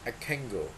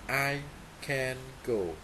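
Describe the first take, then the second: First: The n in 'can' becomes ng before go. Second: The n in 'can' stays a plain n.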